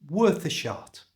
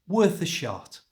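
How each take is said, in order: The two takes are said the same way.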